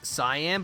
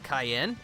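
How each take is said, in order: First: The name sounds like the color cyan. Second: The name sounds like the pepper cayenne. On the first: The speaker calls it wrong. "I made that exact same mistake" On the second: The speaker calls it right. "pronounced like the pepper"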